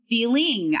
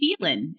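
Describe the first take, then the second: First: The word ends in -ing, with the g sound. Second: The word ends in -in, without the g sound. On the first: "of feeling" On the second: "I lost my G's. ... I will say feeling instead"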